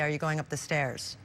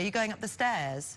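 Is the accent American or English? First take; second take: American; English. First: It is said in an American accent. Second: It is said in an English accent.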